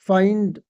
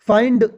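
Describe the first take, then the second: First: The final d is released lightly. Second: The final d is released strongly. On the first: The speaker calls it right. "बिल्कुल last में हल्की से" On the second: The speaker calls it wrong. "ऐसे नहीं ब- बोला जाता"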